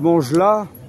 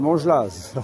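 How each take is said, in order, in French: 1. Le nom se termine sans son z. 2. Le nom se termine par un son z. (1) "ici, on dit Mangelas" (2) "mais en fait, c'est Mangelas"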